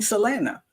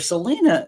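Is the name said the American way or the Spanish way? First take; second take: Spanish; American. First: The name is said with a Spanish pronunciation. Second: The name is said with an American pronunciation. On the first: "that's how you pronounce it in Spanish" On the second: "I hear Selena by the Americans"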